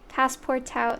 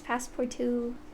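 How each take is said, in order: First: The name ends with an 'out' sound. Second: The name ends with a 'too' sound. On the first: The speaker calls it wrong. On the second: The speaker calls it right. "it's passport two because it's French"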